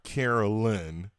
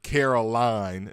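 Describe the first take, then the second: First: The last syllable sounds like 'lin'. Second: The last syllable sounds like 'line'. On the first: The speaker calls it wrong. "not Carolyn" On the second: The speaker calls it right. "Caroline, not Carolyn"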